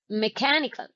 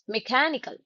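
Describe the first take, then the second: First: The unstressed vowel is reduced to uh. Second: The same.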